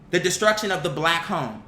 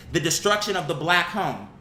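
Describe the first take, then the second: No difference in how they are said.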